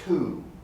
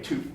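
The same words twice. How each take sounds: First: The vowel is said long and drawn out. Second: The vowel is said short and clipped. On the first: The speaker calls it right. "but rather two" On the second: The speaker calls it wrong. "I never say two"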